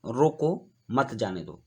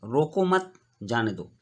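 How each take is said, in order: First: रोको on its own, a pause, then मत जाने दो as one phrase; pause after रोको. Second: रोको मत joined, a pause, then जाने दो; pause after मत. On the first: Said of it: "तो इसको हम पढ़ेंगे". (रोको के बाद विराम, फिर मत जाने दो) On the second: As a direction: keep रोको with मत and break before जाने दो. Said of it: "यहाँ कॉमा मत के बाद दिया गया है". (रोको मत के बाद रुककर, जाने दो) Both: Shown as a demonstration.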